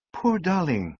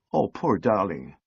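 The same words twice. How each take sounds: First: Higher "Poor darling" after a stunned pause; recovering speech. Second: Tender pity. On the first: Sally finally speaking after staring helplessly. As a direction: find your voice again, pitched up. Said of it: "finding speech". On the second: Sally pitying the sobbing lift man, tenderly. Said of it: "she broke off". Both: A narrator's reading.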